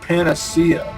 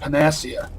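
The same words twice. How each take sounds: First: The stress is not on the second syllable. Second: The stress is on the second syllable. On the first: The speaker calls it right. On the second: The speaker calls it wrong.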